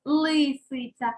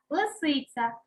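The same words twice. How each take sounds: First: Лисиця with a full, stretched first «и»; clear stressed Y. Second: Said in the usual way. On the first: Shown as a demonstration. Teacher shows the spelling, лисиця with clear first «и». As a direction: sound out «ли» in лисиця deliberately. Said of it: "під наголосом ставимо". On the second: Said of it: "під наголосом ставимо лисиця".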